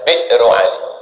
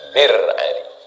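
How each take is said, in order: First: The first word has a glottal catch inside. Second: The first word has no glottal catch inside. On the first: This is the original form of the word. "Asal katanya Bi'ru Ali" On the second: This is the easier everyday form. "Karena susah menyebut hamzah di tengah itu, maka jadi Bir Ali"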